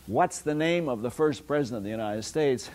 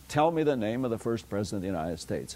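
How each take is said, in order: First: "What's the name" asked with a rise at "United States"; question form. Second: "Tell me the name" said briskly, falling at "United States"; directive form. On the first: Lecturer showing students a question, rising on "United States". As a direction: ask it as a question, lifting "United States" at the end. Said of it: "Both the question form". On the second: Lecturer showing students the equivalent directive, quick and falling on "United States". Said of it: "and the directive". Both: Shown as a demonstration.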